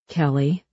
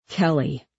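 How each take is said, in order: First: Calm call with a gentle rise. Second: Firm, falling name call like an angry parent. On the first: Huck to girl with gun, calm. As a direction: coax her by name. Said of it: "Huck's voice was calm". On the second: Huck to girl with gun, firm. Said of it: "Huck made his voice firm like an angry parent". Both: A narrator's reading.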